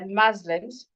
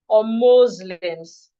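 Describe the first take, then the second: First: The first vowel sounds like 'a'. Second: The first vowel sounds like 'o'. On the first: "You can use the A sound" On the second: "or the O sound"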